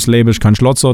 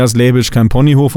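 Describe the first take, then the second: First: The saying in light Swabian, Schlotzer said the Swabian way; a mild Swabian version of the proverb; Swabian dialect. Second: Said in the usual way. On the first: Shown as a demonstration. Coach gives the Swabian version, lightly Swabian. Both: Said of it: "oder auf Schwäbisch".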